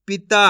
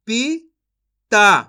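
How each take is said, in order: First: Said in the usual way. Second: पिता very slowly split as "पी ... ता", loud; syllable by syllable. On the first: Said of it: "इनको आपस में लाके पढ़ देना है". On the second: Shown as a demonstration. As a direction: sound out पिता in two separate pieces. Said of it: "एक अक्षर का उच्चारण करके". (पिता को तोड़कर, धीरे-धीरे)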